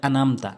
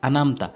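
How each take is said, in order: First: The middle throat sound is left out. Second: The same.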